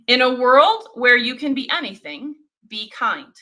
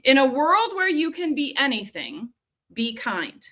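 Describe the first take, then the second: First: The audio sounds clearer than the first. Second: The audio sounds clear but least polished. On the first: "switch the microphone to a different option"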